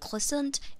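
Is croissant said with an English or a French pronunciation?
English. It is said with an English-style pronunciation. The speaker calls it wrong. "Not croissant"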